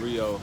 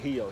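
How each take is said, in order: First: The word begins with an R sound. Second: The word begins with an H sound.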